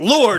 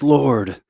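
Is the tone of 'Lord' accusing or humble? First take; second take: accusing; humble. First: It is said in an accusing, reproachful tone. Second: It is said in a humble, reverent tone. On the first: The speaker blames the one addressed. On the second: The speaker submits to the one addressed. "when she fell at his feet, her tone was different. It was"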